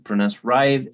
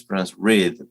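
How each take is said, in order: First: "ride" with a long eye vowel; ride pronounced with long I. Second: "rid" with a short ih vowel; rid pronounced with short I. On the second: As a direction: say "rid" with the I as in "hid". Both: Shown as a demonstration. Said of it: "that's confusing to me".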